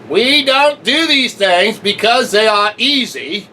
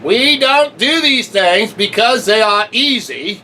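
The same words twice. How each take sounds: First: It is said imitating another speaker's voice. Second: The same.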